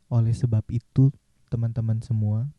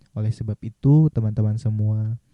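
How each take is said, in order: The two takes are said the same way.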